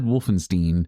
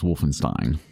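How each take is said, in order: First: The last syllable sounds like 'steen'. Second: The last syllable sounds like 'stine'. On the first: The speaker calls it wrong. "I said Wolfenstein" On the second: The speaker calls it right. "he says it was Wolfenstein"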